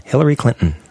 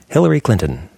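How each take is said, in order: First: CLINTON with the T held into a syllabic N; don't release the T in Clinton; in-person pronunciation. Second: CLINTON with the T fully sounded; radio pronunciation. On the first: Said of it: "In person". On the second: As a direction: release the T in Clinton clearly. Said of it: "On the radio". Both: Shown as a demonstration.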